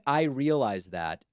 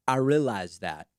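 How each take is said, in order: First: Said in the usual way. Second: "realize" said as ree-alize, extra syllable up front; imitating her "realize". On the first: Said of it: "instead of saying". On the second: Host mocking the Fox anchor's way of saying "realize". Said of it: "Is that the accent?".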